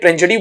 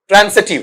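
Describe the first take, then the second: First: The consonant after 'tran' is a z sound. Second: The consonant after 'tran' is an s sound. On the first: The speaker calls it wrong. "जैसे मैं ट्रांजिटिव बोल रहा हूं, शुद्ध उच्चारण ट्रांजिटिव नहीं है" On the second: The speaker calls it right. "बल्कि ट्रांसिटिव है। जय की जगह सह साउंड आता है।"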